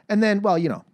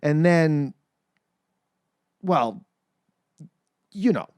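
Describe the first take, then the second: First: It is said without pauses between phrases. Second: It is said with pauses between phrases.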